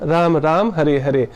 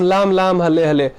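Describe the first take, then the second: First: The words are said with an R sound. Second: The words are said with an L sound. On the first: The speaker calls it right. "ये सही सही उच्चारण है" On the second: The speaker calls it wrong. "हम लोग तो Chinese नहीं है"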